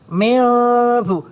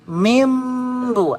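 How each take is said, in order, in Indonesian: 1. Bibir tetap sedikit terbuka pada bunyi m. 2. Bibir menutup rapat pada bunyi m. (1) "Jadi ada dikit terbuka. ... Enggak enggak rapat" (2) "mingkem rapat, bibirnya rapat"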